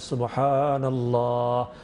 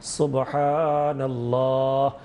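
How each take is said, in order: The two takes are said the same way.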